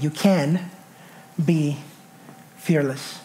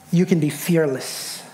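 First: "can" leaned on, then a pause after it and after "be"; low, word by word, with weight on "can"; stress on can. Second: Said in the usual way. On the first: Shown as a demonstration. Preacher drilling the point in, "can" stressed and set apart by pauses. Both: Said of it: "emphasis on that word can".

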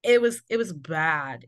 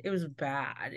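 First: Said in the usual way. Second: Much softer, sinking repeat; quiet echo. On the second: Real, not acted. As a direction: drop it to a low murmur. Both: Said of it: "repeats it quietly".

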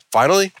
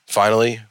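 First: Finally pitched way up, rising; singsong high finally. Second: Said in the usual way. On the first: Acted. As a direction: sing finally up high, teasing. Repeated announcement, climbing pitch.

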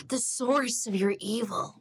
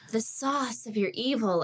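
First: Put-on American accent with a very hard R in SOURCE; exaggerated rhotic American line reading; overdone American accent. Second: Put-on mistaken American accent with SAUCE in an open AH vowel and no R; American-style SAUCE where source was meant; botched American line reading; bad American accent. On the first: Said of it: "my R is so hard". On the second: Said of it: "my bad American accent".

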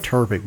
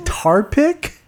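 First: Turpic said as one word with an r-colored "ur" vowel. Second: Tar pick said as two words, "tar" then "pick", rising at the end. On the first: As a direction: say Turpic as a smooth tur-pic. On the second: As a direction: say Tar pick with an open "ar" vowel, as a question. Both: Shown as a demonstration. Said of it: "I like Turpic better".

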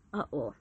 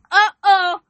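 First: Low, soft uh-oh; quiet uh-oh. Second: Uh-oh cried out high and loud. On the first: Preacher sensing she offends listeners, low quiet uh-oh. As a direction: murmur Uh-oh under the breath. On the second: Preacher ruffling listeners' feathers, loud high uh-oh. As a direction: belt Uh-oh with a laughing alarm. Sensing she offends listeners. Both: Real, not acted.

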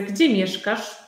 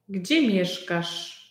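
First: Said in the usual way. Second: Gdzie mieszkasz said slowly and clearly; slow, clear repeat. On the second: Shown as a demonstration. (powoli, dla ucznia) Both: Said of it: "repeated slowly for learner".

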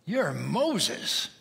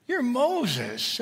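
First: Said in the usual way. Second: Higher, pumped-up hype man voice; hyped-up God. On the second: Acted. God hyping up Moses, excited and higher. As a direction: sell it like a cheerleader. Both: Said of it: "And for God to say".

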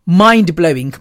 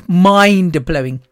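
First: Said in the usual way. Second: "mind-blowing" said slowly, syllable by syllable; drawn out, slow. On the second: Shown as a demonstration. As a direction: stretch out "mind-blowing" for emphasis.

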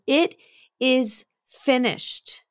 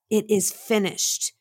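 First: A slow, rising cry drawn out high; a hint of a dying man's final cry; called out slowly. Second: Said in the usual way. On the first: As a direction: call it out slowly, like a last cry from the cross. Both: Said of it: "he called out".

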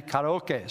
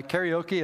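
First: "karaoke" said as kah-rah-oh-keh; Japanese-style "karaoke", final "keh"; correct Japanese pronunciation. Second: First "karaoke" said as carry-oh-key; Americanized "karaoke", ending in "kee"; common English pronunciation. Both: Shown as a demonstration. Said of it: "is actually karaoke".

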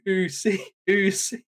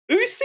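First: Imitated crowd chant, higher pitched. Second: Very high, squeaked mock disbelief; incredulous question. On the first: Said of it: "the crowd start chanting". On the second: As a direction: query the word as if astonished. Wrestler questions the crowd's chant.

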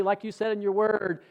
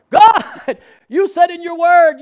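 First: Tentative prayer, no force behind it; very weak voice. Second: High, booming cry to God; strong, emboldened shout. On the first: Preacher retelling his early prayer to God, weak voice. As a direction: imitate a feeble, unconvinced prayer. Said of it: "a very weak voice". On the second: Preacher re-enacting marching through his room praying, emboldened shout. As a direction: shout it boldly, claiming the promise. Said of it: "I was marching through my room saying". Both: Retold or imitated.

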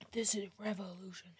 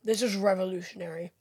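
First: Whispered "This is revolutionary" with sarcasm; sarcastic whisper. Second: Dry sarcastic deadpan, low and soft. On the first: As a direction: whisper "This is revolutionary" in mock awe. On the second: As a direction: say it sarcastically, without real excitement. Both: Acted. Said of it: "I was being sarcastic".

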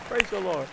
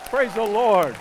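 First: Said in the usual way. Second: Louder call of praise to the church. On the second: Real, not acted. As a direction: lift the crowd with a loud shout of praise. Calling congregation to praise.

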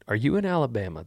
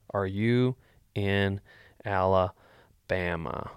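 First: Said in the usual way. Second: Slow, drawn-out Alabama; drawn-out question. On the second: Shown as a demonstration. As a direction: stretch out Alabama slowly. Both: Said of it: "That's what I'm gonna D M him back".

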